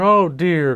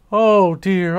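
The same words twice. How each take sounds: First: Aunt Flounder fretting, the echoing second cry; distressed cry, easing. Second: Higher, louder wail of worry; first anxious oh dear, the strongest; Aunt Flounder fretting over Flash, first cry; distressed cry. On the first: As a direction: repeat the worry a little less sharply. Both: A narrator's reading. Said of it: "cried Aunt Flounder".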